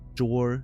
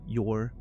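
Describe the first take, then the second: First: The name starts with a J sound. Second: The name starts with a Y sound. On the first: "if it's Yor or Jor" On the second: "J is pronounced Y in, in Nordic languages"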